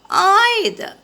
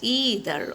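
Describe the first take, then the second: First: The first vowel is the 'eye' sound. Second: The first vowel is not the 'eye' sound. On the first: "So we have learned the sound I" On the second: "There is another pronunciation also possible for either"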